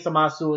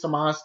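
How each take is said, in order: First: A full final u vowel is pronounced. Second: The word ends on s with no vowel. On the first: The speaker calls it wrong. "You shouldn't be saying Samasu" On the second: The speaker calls it right. "The name is Samas"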